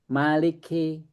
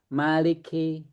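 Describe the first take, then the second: Both takes have the same delivery.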